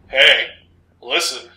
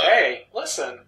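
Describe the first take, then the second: First: It is said in a dark, menacing voice. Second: It is said in a light, ordinary voice.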